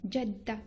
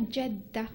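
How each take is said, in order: The two takes are said the same way.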